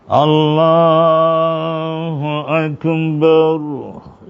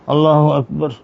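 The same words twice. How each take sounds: First: It is said slowly, drawn out long. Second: It is said quickly, in a short moment.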